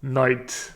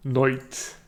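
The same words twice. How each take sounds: First: Said in the usual way. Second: Irish "Noit", oy for long i; Irish accent. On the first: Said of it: "Now, in English". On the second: Shown as a demonstration. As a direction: turn night into Irish "Noit". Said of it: "practice words with this vowel shift".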